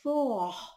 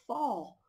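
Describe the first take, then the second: First: The vowel is a closed o sound. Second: The vowel is an open å sound. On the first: The speaker calls it wrong. "vi siger jo ikke for" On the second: The speaker calls it right. "ået skiftet lyd over til en å-lyd"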